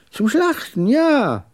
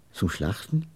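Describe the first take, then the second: First: Put-on high, emphatic old man's confirmation; jagged old trader's voice, pitched up. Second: Low, soft questioning echo; hushed, dismayed question. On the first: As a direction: repeat it high, ending on a loud yes. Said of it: "Seine Stimme hatte etwas Schartiges". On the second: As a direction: repeat it quietly, taken aback. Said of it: "Wir waren beide betroffen". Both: A narrator's reading.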